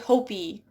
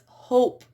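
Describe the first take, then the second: First: An extra vowel is sounded at the end. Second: The word ends without an extra vowel. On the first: The speaker calls it wrong. "we don't say hopey" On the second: The speaker calls it right. "So it's hope"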